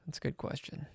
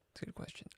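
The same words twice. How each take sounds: First: Quiet aside. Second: Whispered aside. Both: Real, not acted.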